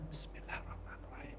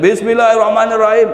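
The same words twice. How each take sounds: First: It is said softly, just audible to oneself. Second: It is said loudly, competing with noise.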